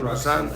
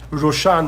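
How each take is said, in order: First: The name is said with a z sound, like Roseanne. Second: The name is said with a sh sound, like Roshan. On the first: This is the English form of the name. "that's how you say it in English" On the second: This is the form used in the source text. "But the way it's in here"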